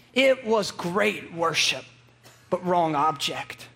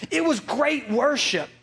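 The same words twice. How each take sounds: First: It was great worship said slowly, each word weighted, then a low wrong object; slow, weighty preacher repeat; slow emphasis. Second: Said in the usual way. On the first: Shown as a demonstration. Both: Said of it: "repeats the point slowly".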